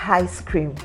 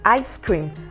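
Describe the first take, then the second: First: The phrase starts with an h sound. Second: The phrase starts directly with the vowel. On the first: The speaker calls it wrong. "and not ice cream" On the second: The speaker calls it right. "I as an ice cream"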